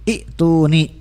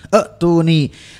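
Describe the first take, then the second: First: The word begins with an 'ee' vowel. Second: The word begins with an 'e' sound. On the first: This is the form read on its own. "Itu ya kan asalnya i" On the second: This is the form when joined to the previous word. "berarti si ya-nya balik lagi jadi hamzah sukun"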